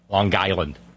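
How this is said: A hard g sound runs into Island.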